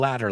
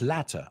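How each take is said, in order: First: The middle consonant sounds like a soft D. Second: The middle consonant is a crisp T. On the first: "in American English, that's a homophone with ladder" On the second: "En English británico, no, porque la T para ellos es latter"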